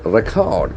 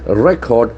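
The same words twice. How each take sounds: First: Record stressed on the second syllable, re-CORD; verb stress. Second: Record stressed on the first syllable, REC-ord; noun stress. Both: Shown as a demonstration. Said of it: "For example".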